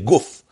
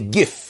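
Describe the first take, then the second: First: The word has a Lithuanian Yiddish vowel. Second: The word has a Polish Yiddish vowel. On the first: "Not like the Russian Litvish Yiddish, say guf" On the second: "By the Polish, you say gif"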